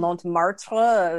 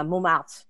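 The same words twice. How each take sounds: First: "Montmartre" with every part overpronounced; clumsy "Montmartre" with a heavy tacked-on ending; butchered pronunciation. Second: "Montmartre" said smoothly the French way; "Montmartre" with its ending swallowed, French style; correct French pronunciation. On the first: Mocking her old attempt, "Montmartre" badly butchered. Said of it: "I butchered the pronunciation". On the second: Showing the proper name, "Montmartre" in French pronunciation. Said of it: "I could not pronounce Montmartre". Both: Shown as a demonstration.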